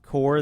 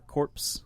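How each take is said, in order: First: The word ends in an r sound. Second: The word ends in a ps sound. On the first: The speaker calls it right. "instead of saying core" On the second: The speaker calls it wrong. "Or corpse. It's it's stupid"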